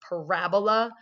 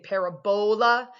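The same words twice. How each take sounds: First: The stress falls on the syllable ra. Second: The stress falls on the syllable bo. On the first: The speaker calls it right. "with the accent on the ra" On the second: The speaker calls it wrong. "they put the emphasis on the bowl"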